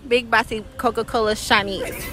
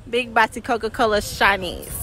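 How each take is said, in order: Both takes have the same delivery.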